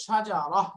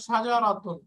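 First: "সাজারাহ" ending in a breathed h; pausal ha ending. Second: Said in the usual way. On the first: Shown as a demonstration. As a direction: stop on "সাজারাহ", final ta turned to h. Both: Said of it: "আমি যদি দম ছেড়ে দেই".

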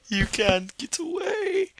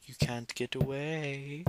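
First: Very high, slow sing-song taunt; high creepy killer. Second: Soft, slow taunt rising at the end; playful creepy killer. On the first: Killer to a fleeing victim, high crazed taunt. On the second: Killer to a fleeing victim, creepy soft taunt. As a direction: taunt softly, drawn out. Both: Pretend.

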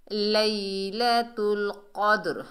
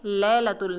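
First: लैलतुल slow with a glided "lay-i", क़द्र with heavy q; careful Quranic recitation. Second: लैलतुल with a short open "lai", no glide; wrong pronunciation demo. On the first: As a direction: chant लैलतुल क़द्र slowly, bouncing the d. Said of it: "कॉफ को मोटा पढ़ेंगे". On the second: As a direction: say लैलतुल quickly with the diphthong flattened to "le". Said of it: "नहीं पढ़ना". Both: Shown as a demonstration.

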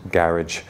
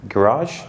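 First: Said in the usual way. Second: GARAGE as guh-RAHZH, stress on the second syllable, questioning rise; tentative American-style GARAGE, guh-RAHZH; American pronunciation. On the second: Shown as a demonstration. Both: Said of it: "How do you say it in America?".

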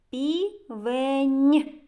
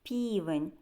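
First: "Півень" with an exaggerated, held palatal N; stretched final N. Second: Said in the usual way. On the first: Shown as a demonstration. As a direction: split "Півень" and lean hard on the final нь. Teacher stretches the final soft consonant. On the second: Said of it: "вимовте це слово".

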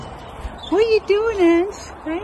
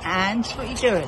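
First: Much higher, slow and louder squeal at the bird; squeaky high pet voice. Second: Said in the usual way. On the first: Real, not acted. Repeats question to bird Ange.

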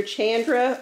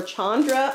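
First: Chandra with the first vowel as in "can"; first syllable of Chandra rhymes with "fan"; short-a Chandra. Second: Chandra with the first vowel as in "father"; first syllable of Chandra rhymes with "on"; broad-a Chandra. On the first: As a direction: say Chandra as CHAN-druh, flat A like "ant". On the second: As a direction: say Chandra as SHAHN-druh, open AH sound. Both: Shown as a demonstration. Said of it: "say it both ways".

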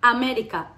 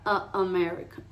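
First: "América" with open A and tapped R; "América" the Spanish way, full first A; Spanish pronunciation. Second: "America" opening on a short "uh"; closed first A. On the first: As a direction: say "América" higher, in clear Spanish vowels. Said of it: "la diferencia entre América y America". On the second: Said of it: "la A se cierra". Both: Shown as a demonstration.

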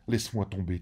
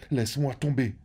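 First: Said in the usual way. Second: Rising plea. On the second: A narrator's reading. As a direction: cry out the last laisse-moi tomber as the plea peaks. Climax of the repeated plea.

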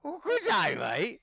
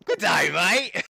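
First: Put-on high squeaky Australian accent; mock Australian accent, squeaked. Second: Hammed-up Australian accent greeting; a cheesy Australian accent. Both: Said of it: "pretty sick Aussie accent too".

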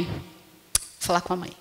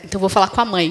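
First: Much softer, slower muttered repeat; muttered aside. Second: Said in the usual way. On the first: Retold or imitated. Child muttering after dad says no, much softer and slower. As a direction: say it under your breath, sulking, slower. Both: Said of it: "não vai aquela história".

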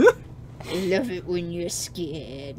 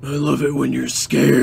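First: Slow, drawn-out creepy man. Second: Creepy man voice. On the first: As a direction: lurk and savour every word slowly. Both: Acted. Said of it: "a creepy man voice".

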